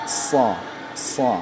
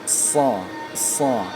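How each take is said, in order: No difference in how they are said.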